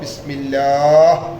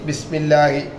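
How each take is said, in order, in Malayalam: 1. വാക്ക് അവസാനിക്കുന്നത് 'h' എന്ന വ്യഞ്ജനത്തിലാണ്. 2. വാക്ക് അവസാനിക്കുന്നത് അവസാന 'i' സ്വരാക്ഷരത്തിലാണ്. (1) "പറയുമ്പോൾ ബിസ്മില്ലാഹ്" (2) "എഴുത്തിൽ ബിസ്മില്ലാഹി"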